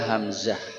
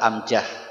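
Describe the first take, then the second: First: It begins with h and has a z sound. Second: It begins with a vowel and has a j sound. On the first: "Nama dia hamzah" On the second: "Orang kita amjah"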